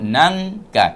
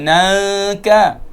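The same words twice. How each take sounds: First: The nasal before the k is closed off. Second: The nasal before the k is left open. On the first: The speaker calls it right. "Kita rapatkan pakai lidah ke atas" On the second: The speaker calls it wrong. "kita tak sebut nangka"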